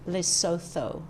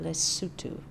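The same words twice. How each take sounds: First: The name is said as its spelling suggests. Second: The name follows its local pronunciation. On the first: The speaker calls it wrong. "not Lesotho" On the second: The speaker calls it right. "they pronounce it Lesotho"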